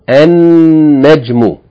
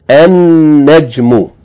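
Both takes have the same delivery.

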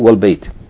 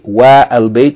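First: The A of the article is dropped entirely. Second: The A of the article is pronounced separately. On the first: The speaker calls it right. "if there's a word before it, that A is not going to be pronounced" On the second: The speaker calls it wrong. "you're not going to say Wa Al Bayt"

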